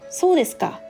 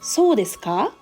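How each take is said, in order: First: The pitch falls on the final ka. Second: The pitch rises on the final ka. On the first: It shows understanding and listening to the other person. "When pronounced with a falling intonation, it conveys understanding" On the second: It asks a real question. "Ka is pronounced with a rising intonation"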